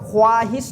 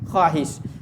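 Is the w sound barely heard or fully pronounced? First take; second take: fully pronounced; barely heard. First: The w sound is clearly and fully pronounced. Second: The w sound is only faintly hinted. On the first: The speaker calls it wrong. "तो वाव ख्वाहिश नहीं पढ़ते" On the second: The speaker calls it right. "सिर्फ वाव की बू आती है"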